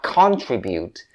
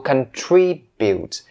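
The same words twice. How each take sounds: First: The stress is not on the second syllable. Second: The stress is on the second syllable. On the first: The speaker calls it wrong. "not contribute" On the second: The speaker calls it right. "make sure that you stress the second one"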